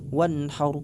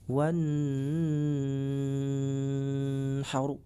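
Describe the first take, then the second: First: The n sound is quick and clear. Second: The n sound is held and nasalized. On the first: The speaker calls it right. "seperti ini yang benar ... dibaca cepat dan jelas" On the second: The speaker calls it wrong. "dengan menahan suara atau mendengungkan suara seperti ini"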